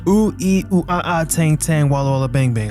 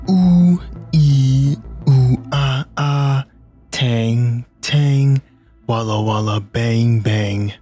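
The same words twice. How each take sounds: First: It is said at a normal speed. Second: It is said very slowly, in slow motion.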